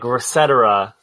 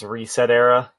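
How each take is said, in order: First: The name is said to rhyme with 'et cetera'. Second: The name is said as 'reset' then 'era'. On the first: "Like, et cetera, right?" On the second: "But I'm pretty sure it's Reset Era"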